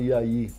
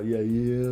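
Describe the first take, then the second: First: It is said with a flat melody. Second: It is said with a curving, lifting melody.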